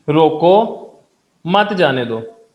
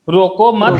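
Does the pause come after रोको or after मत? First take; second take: after रोको; after मत. First: The pause comes right after रोको. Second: The pause comes right after मत.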